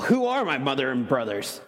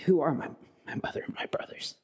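First: It is said in a curt, dismissive tone. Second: It is said in a soft, caring whisper. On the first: He is distancing himself from his family outside. The speaker calls it wrong. "that sends a message" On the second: He is telling those near him they are family too. The speaker calls it right. "a broken and caring whisper"

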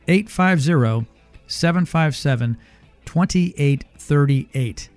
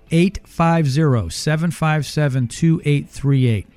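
First: The number is said slowly. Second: The number is said at normal speed.

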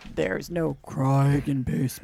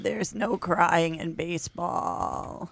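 First: It is said with a lowered, deep pitch. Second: It is said with a creaky vocal fry.

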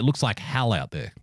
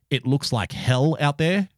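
First: The vowel in 'hell' sounds like an A. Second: The vowel in 'hell' is a plain E. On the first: "Somebody from Victoria would say, ... like H-A-L" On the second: "where somebody from Sydney would say"

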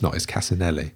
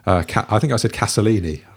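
First: The middle sounds are 'si-nel', ending in 'nelli'. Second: The middle sounds are 'so-lee', ending in 'lini'. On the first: The speaker calls it right. "It's Casinelli" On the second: The speaker calls it wrong. "I mispronounced his name somewhat hilariously"

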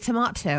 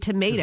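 First: Tomato is said the British way. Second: Tomato is said the American way.

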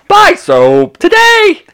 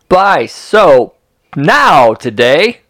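First: It is read with lively ups and downs. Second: It is read flat and wooden.

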